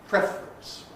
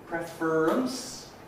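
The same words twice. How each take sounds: First: It has two syllables, with the r compressed. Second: It has three syllables, with a syllabic r. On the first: "giving us a two-syllable version" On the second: "syllabic consonant formation"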